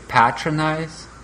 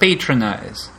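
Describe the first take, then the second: First: The word is said with a British accent. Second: The word is said with an American accent. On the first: "со своим британским акцентом" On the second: "Он спрашивает, что ты нас patronize?"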